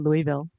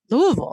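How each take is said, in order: First: It is said with an outsider's pronunciation. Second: It is said with the local pronunciation. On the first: The speaker is from out of town. The speaker calls it wrong. "I wouldn't dare say Louisville. When I'm there, people think I'm from out of town" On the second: The speaker is from the city. The speaker calls it right. "that's the way we say it"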